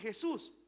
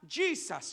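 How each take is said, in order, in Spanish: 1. El nombre se dice con pronunciación española. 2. El nombre se dice con pronunciación inglesa. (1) "Jesus para mí es lo mismo que Jesús" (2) "si yo fuese a Estados Unidos y tuviera que predicar en inglés, sí tendría que decir allá Jesus"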